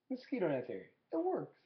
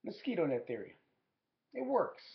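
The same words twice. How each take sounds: First: Works jumps high at the end; high sing-song works. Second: Said in the usual way. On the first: Shown as a demonstration. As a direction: lift it works way up, playful.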